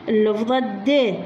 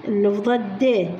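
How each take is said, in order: Both takes have the same delivery.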